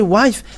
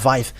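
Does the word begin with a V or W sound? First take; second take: W; V. First: The word begins with a W sound. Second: The word begins with a V sound. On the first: "if you say wife, ah, they're uh, taking it as something else" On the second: "they uh, pronounce it uh, wife"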